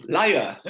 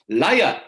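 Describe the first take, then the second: First: Mock accusation, falling. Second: Loud, teasing cry of liar; mock accusation. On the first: Subhadra repeating the charge, mock accusation fading. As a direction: let the charge drop with a knowing fall. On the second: Subhadra teasing Jagannath, loud mock accusation. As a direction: hurl it at him like a playful scold. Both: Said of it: "looked at Jagannath and said".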